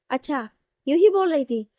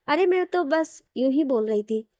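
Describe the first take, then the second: First: Louder, challenging repeat of an excuse; disbelieving, with a pitch jump mid-phrase; indignant echo. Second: Mildly defensive, offhand excuse; casual backpedalling. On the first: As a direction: throw it back as an accusing question. Throws the excuse back at her. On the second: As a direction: lightly brush it off as idle talk. Brushes off her earlier remarks. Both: Acted.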